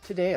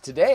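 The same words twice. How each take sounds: First: Said in a calm public radio host voice. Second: Said in a punchy TV news anchor voice. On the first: "The other one, the N P R" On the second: "the typical news voice"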